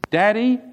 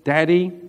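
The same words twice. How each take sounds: First: The word sounds happy and cheerful. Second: The word sounds sad and troubled. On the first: Something good has happened. "the inflection of voice was completely different" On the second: Something bad has happened. "immediately I knew there was trouble"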